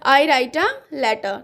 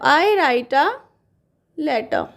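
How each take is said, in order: First: Very slow, each word stretched; slow dictation. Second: Said in the usual way. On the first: Shown as a demonstration. Teacher repeating the answer for students, slowly. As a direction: read it out slowly for writing. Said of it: "okay". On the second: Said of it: "तो".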